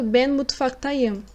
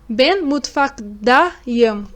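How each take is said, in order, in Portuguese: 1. O sufixo depois de mutfak começa com som de t. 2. O sufixo depois de mutfak começa com som de d. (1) "vamos usar o sufixo ta, em vez de da" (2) "com o da, em vez do ta"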